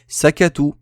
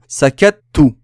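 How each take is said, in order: First: The t is short with no hold before the vowel. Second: The t is held briefly before the vowel. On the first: The word has a single t. "S'il n'y avait pas la shadda, j'aurais dit sakatu" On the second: The word has a doubled t. "je retiens le T en mettant un petit temps avant de prononcer la voyelle"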